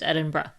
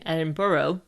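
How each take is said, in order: First: It is said with a local, non-American pronunciation. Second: It is said with an American pronunciation. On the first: The speaker calls it right. "The correct way of saying the capital city of Scotland" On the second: The speaker calls it wrong. "If you say it like an American"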